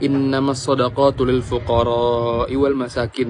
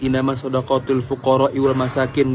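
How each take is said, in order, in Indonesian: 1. Vokal akhir fuqara dibaca panjang. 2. Vokal akhir fuqara dibaca pendek.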